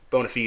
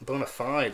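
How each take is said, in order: First: It uses the Latin pronunciation. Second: It uses the common American pronunciation. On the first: The speaker calls it right. "It's Latin" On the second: The speaker calls it wrong. "What ignorant Americans say"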